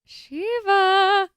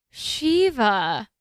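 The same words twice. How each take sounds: First: Shiva said as SHOO-va, pitched higher; second guess at the name. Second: Shiva said as SHEE-va, rising like a question; first guess at the name. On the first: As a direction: try Shiva again as SHOO-va. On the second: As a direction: try Shiva as SHEE-va, unsure. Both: Shown as a demonstration. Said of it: "Spelling's a little".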